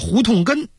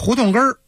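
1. 最后一个音节不儿化。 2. 最后一个音节是儿化音。

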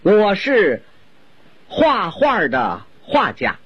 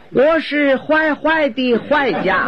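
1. 重复的那个音节读 hua。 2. 重复的那个音节读 huai。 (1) "我先用普通话给您介绍一下" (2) "就因为一个画字他发音走了形"

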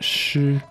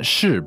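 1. Der Ton ist hoch und gleichbleibend. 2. Der Ton ist nicht hoch und gleichbleibend. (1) "First tone, meaning poetry" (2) "not 诗"

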